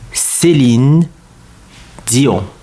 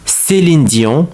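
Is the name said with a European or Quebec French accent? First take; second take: European; Quebec. First: It is said with a European French accent. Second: It is said with a Quebec French accent. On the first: "In France, in in Europe, her name is Céline Dion" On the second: "In Quebec, it is not pronounced like Céline, in. It's more like Céline"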